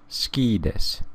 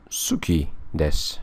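First: The u after s is dropped. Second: The u after s is clearly pronounced.

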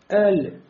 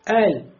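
First: The L ends with an added bouncing release. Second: The L is short and clean, without extras. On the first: The speaker calls it wrong. "видели «калькаля», а у «лям» нет «калькаля»" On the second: The speaker calls it right. "просто «эль»"

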